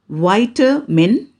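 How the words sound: The word is said in an American accent. "American pronunciation"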